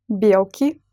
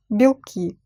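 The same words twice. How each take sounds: First: "Белки" stressed on the first syllable, BYEL-ki; full ye vowel, stressed, in "Белки". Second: "белки" stressed on the last syllable, bil-KI; stress on second syllable. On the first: Teacher showing learners how stress changes meaning, "Белки" stressed on BYEL. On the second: Teacher showing learners how stress changes meaning, "белки" stressed on KI. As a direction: reduce the first vowel of "белки" to i and stress KI. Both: Shown as a demonstration. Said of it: "meaning of the word depends on it".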